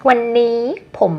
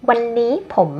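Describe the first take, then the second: No difference in how they are said.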